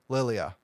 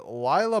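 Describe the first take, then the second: First: The name is said with three syllables. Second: The name is said with two syllables. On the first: The speaker calls it right. "There's an I in between" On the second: The speaker calls it wrong. "not Lila"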